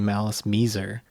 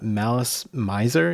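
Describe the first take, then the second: First: The name is said with Japanese-style pronunciation. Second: The name is said with English pronunciation. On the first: "it's a Japanese band, so it should probably be Malice Miser" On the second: "as a native English speaker, uh, Malice Miser is most intuitive for me to say"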